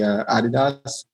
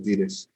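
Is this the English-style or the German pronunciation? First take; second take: German; English-style. First: The brand name is pronounced the German way. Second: The brand name is pronounced the English-style way. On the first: This is how the brand's home country says it. "if you ask the clients in Germany, it's definitely Adidas" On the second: "and then it was Adidas"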